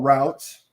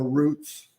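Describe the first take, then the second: First: "routes" said to rhyme with "shouts"; first vowel of "routes" as in "out"; variant pronunciation. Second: "routes" said like "roots"; "routes" rhyming with "boots"; alternative pronunciation. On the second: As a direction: say "routes" with a long OO vowel. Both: Shown as a demonstration. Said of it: "depending on how you pronounce it".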